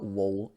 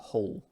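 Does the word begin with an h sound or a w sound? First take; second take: w sound; h sound. First: The word begins with a w sound. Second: The word begins with an h sound. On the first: The speaker calls it wrong. "there's no pronunciation of the W. It's not, it's not wool" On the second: The speaker calls it right. "you use the H here"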